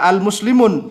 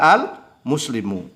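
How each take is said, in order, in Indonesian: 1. Kata ini berakhir dengan bunyi n tambahan. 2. Kata ini berakhir dengan vokal, tidak ada n. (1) "jadi nggak boleh dibaca al-muslimun" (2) "tetapi dibaca al-muslimu"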